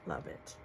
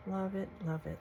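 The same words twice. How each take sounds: First: Whispered. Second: Said in the usual way. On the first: Real, not acted. Repeating praise, fading to whisper.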